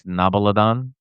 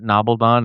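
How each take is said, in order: First: The word has four syllables, with an added vowel. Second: The word has three syllables, with no added vowel. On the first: The speaker calls it wrong. "You added a syllable" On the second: The speaker calls it right. "Did I say it wrong?"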